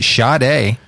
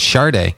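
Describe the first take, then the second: First: "[name]" said as shah-DAY, no r; own pronunciation. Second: "[name]" said as shar-DAY, r sounded. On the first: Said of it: "I always pronounce it". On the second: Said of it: "with an R in there". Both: Shown as a demonstration.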